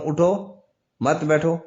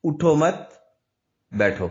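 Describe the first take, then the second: First: "اٹھو" raised and halted, then "مت بیٹھو" together; pause after اٹھو. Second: "اٹھو مت" run together, long stop, then "بیٹھو" falling; pause after مت. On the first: Teacher demonstrates the other meaning, pausing after اٹھو. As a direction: stop on a rising "اٹھو" before "مت بیٹھو". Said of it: "اگر میں اٹھو پر وقف کر رہا ہوں". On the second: Teacher changes the stop to flip meaning, pausing after مت. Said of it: "صرف میں وقف چینج کر رہا ہوں". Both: Shown as a demonstration.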